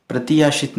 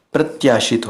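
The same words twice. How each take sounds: First: प्रत्याशित said as pra-ti-ya-shit, with an extra i after t; wrong form. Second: प्रत्याशित said as prat-ya-shit, with t and y joined; प्रत्याशित in three tight syllables, prat-ya; correct form. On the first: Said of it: "प्रत्याशित नहीं होता है". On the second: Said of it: "प्रत्याशित होता है". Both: Shown as a demonstration.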